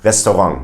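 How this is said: It is French-style with a German accent. The speaker calls it right. "a French way ... but they have a German accent"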